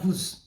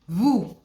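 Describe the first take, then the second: First: The final consonant is pronounced. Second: The final consonant is silent. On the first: The speaker calls it wrong. "is not" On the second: The speaker calls it right. "Never pronounce the last consonant"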